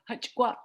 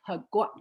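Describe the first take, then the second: First: It has a raspy ch sound in the middle. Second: It has no raspy ch sound in the middle.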